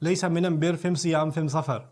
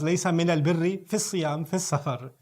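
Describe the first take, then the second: First: The article is said with an m sound. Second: The article is said with an l sound.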